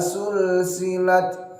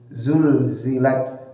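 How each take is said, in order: First: The word begins with an s sound. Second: The word begins with a z sound. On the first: The speaker calls it wrong. "jangan sampai dirubah menjadi huruf sin" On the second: The speaker calls it right. "mirip huruf Z"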